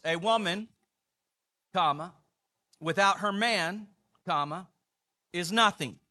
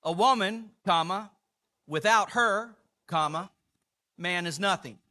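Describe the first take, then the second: First: "A woman, comma, without her man, comma, is nothing" with the pause after man; men's punctuation, rising pause after "man"; men's reading, stress on man. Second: "A woman, comma, without her, comma, man is nothing" with "without her" raised; women's punctuation, lift and pause on "without her"; women's reading, stress on her. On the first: Pastor reads the men's punctuation to the congregation, pausing after "man". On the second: Pastor reads the women's punctuation, rising on "without her". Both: Shown as a demonstration. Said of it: "where you put the emphasis".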